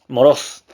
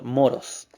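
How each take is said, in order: First: "Moros" stressed on the final O, rising; accent on the O. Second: Said in the usual way. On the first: Shown as a demonstration. Preacher teaching a Greek word, "Moros" stressed on its last O. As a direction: say "Moros" with the last syllable punched. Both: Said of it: "con acento en la O".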